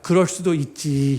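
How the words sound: The ending carries a soft, accepting nuance. The speaker calls it right. "이렇게 이게 좀 뒤에 뉘앙스가"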